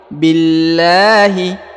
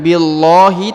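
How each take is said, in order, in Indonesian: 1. Bunyi 'l' dibaca tipis dan ringan. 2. Bunyi 'l' dibaca tebal dan berat. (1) "tapi billahi, ya, jadi dibaca tipis" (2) "bukan billahi"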